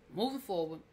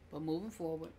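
First: Said in the usual way. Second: Low, much softer deadpan; pointed aside. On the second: Shown as a demonstration. Recapper dropping the subject to viewers, low and soft. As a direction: drop it under your breath, done with it.

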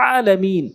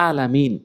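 First: "আলামিন" opening on a squeezed throat ain; correct ain. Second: "আলামিন" opening on a plain glottal "a"; wrong hamza. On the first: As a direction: tighten the throat on the first vowel of "আলামিন". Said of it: "উচ্চারণ করতে হবে আইন এনে". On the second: Teacher showing the common mistake, "আলামিন" with hamza. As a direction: say "আলামিন" with a plain vowel, no throat squeeze. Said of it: "ভুল করে থাকে, বলে". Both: Shown as a demonstration.

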